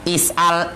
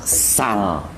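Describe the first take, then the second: First: A glottal stop closes the first syllable. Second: A single syllable with no initial vowel. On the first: This is the original form of the word. "Bunyi aslinya is'al" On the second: The helping vowel at the start has been dropped as well. "jadilah dia sal"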